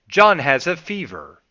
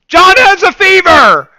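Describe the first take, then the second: First: It is said at a calm, normal volume. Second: It is screamed loudly.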